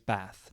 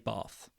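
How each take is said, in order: First: The word is said in a northern English accent. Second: The word is said in a southern English accent. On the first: "My wife is from the north of England, she says Bath" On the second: "I'm from the south of England, I say Bath"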